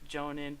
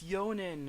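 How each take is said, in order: First: The name begins with a J sound. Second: The name begins with a Y sound. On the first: This is how it is said on the commentaries. "I listen to the commentaries, they pronounce it Jonan" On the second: This is how other fans insist it is said. "every time I talk to people on there they're like, "No, it's Yonan.""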